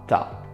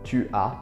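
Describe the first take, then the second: First: The u is dropped, giving one syllable. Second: Both words are said with the u sound.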